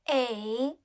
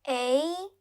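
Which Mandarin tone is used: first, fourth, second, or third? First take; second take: third; second. First: The pitch dips low then rises. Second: The pitch rises from mid to high.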